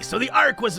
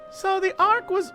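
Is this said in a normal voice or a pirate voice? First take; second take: pirate; normal. First: It is said in a put-on pirate voice. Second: It is said in a normal speaking voice.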